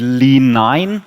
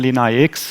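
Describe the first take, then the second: First: The ending is said as the number nine. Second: The ending is said as the letters I X. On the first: The ending is read as a Roman numeral. The speaker calls it wrong. "that would be a wrong interpretation" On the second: The ending is read as English letters. The speaker calls it right. "I stay a little bit with the English uh, pronunciation"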